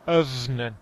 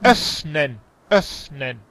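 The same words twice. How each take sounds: First: "öffnen" with a weak, v-like f; wrong soft F. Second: "Öffnen" with a long, blown f; more air. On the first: Retold or imitated. Teacher shows what to avoid, soft-f "öffnen". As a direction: mimic "öffnen" with hardly any air on the f. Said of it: "no öffnen". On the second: Shown as a demonstration. Teacher corrects a student's pronunciation, airy "Öffnen". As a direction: push air through the f of "Öffnen". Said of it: "más aire".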